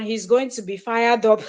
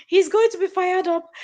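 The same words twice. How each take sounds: First: Said in the usual way. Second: Higher, amused, emphatic repeat; excited. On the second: Acted. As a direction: say it again with glee.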